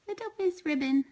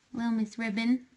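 First: High sweet coo to a kitten; cooing pet voice. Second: Said in the usual way. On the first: Real, not acted. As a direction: lift it way up for the kitten.

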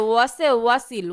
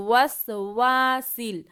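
First: ওয়াসে ওয়াসিল broken into two words with an added এ; the mistake: ওয়াসে ওয়াসিল as separate words; wrong split. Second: ওয়াসওয়াসিল said as one word, no vowel in the middle; correct joined word. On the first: Teacher mimics the pupils' mistaken ওয়াসে ওয়াসিল. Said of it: "তো নাকি ভুল করেন যে". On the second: Teacher gives pupils the correct ওয়াসওয়াসিল as one word. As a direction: run ওয়াসওয়াসিল together smoothly. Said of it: "ওয়াসে ওয়াসিল হবে না". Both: Shown as a demonstration.

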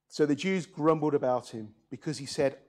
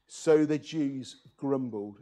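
First: Said in the usual way. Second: Slow, deliberate storyteller read of "grumbled"; savoring the word. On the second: Shown as a demonstration. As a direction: relish "grumbled", take it slow. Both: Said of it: "That's a great word".

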